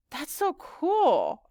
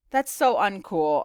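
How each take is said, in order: First: High, very drawn-out gush; wowed, slow and high; awed admiration. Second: Slow, louder, deadpan reversal; drawn-out mock disapproval; joking comeback. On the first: Acted. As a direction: stretch the words in wonder. Girl awed by friend's languages. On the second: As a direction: play the catchphrase backwards for a laugh. Joking reversal of her catchphrase.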